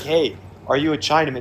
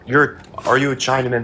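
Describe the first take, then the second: First: It is asked in an innocent, curious tone. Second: It is asked in an insulting tone.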